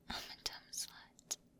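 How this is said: It is whispered.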